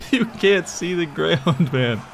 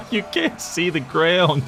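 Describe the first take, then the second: First: Higher, slow, laughing it out again; can barely speak for laughing. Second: Higher, slow words through laughter; cracking up at the sight; laughing. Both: Real, not acted. Laughing at the huge army.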